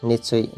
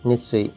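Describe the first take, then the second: No difference in how they are said.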